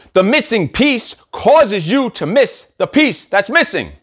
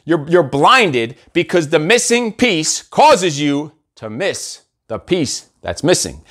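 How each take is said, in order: First: Slow, deliberate tongue twister, every word placed. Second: Slow repeat. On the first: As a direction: spell it out slowly like a riddle. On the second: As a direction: lay the riddle out word by word, sinking away. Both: Shown as a demonstration. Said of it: "I'll repeat that".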